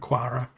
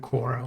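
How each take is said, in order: First: The first vowel sounds like 'ar'. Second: The first vowel sounds like 'or'. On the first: The speaker calls it right. "when I should have called her Quara" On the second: The speaker calls it wrong. "I mispronounced Quara's name by calling her Quora"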